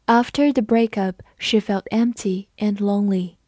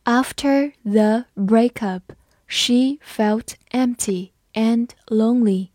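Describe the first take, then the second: First: Said in the usual way. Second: Each word slow and clear; slow reading. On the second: Shown as a demonstration. Teacher reading slowly for students, slow and clear. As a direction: read it slowly for learners. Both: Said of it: "好，我们慢读一遍。".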